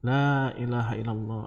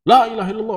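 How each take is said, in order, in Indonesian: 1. Frasa itu diucapkan dengan pelan dan lembut. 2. Frasa itu diucapkan dengan keras dan kuat. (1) "Ucapkan dengan jarak yang dekat" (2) "kalau kita ngomong dari jarak jauh kan kenceng gitu biasanya"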